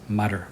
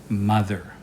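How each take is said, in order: First: The th sound is replaced by another sound. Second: The word uses a voiced th sound. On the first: The speaker calls it wrong. "That one's not right" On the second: The speaker calls it right. "It's mother"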